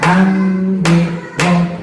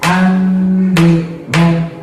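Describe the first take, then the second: No difference in how they are said.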